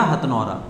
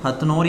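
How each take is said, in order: First: "हथनौरा" with long final -aa; variant place name. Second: "हथनौर" stopping at the r; variant place name. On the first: Teacher offers students the other name, "हथनौरा" ending in -raa. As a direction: finish "हथनौरा" on an open -raa. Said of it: "हथनोरा बोलते हैं". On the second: Teacher offers students two names, first "हथनौर" ending on r. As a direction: say "हथनौर" without a final vowel. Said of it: "कुछ लोग हथनौर बोलते हैं". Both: Shown as a demonstration.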